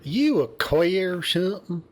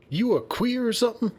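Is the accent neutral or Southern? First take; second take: Southern; neutral. First: It is said with a Southern accent. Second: It is said without a Southern accent.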